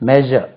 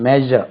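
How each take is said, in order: Both takes have the same delivery.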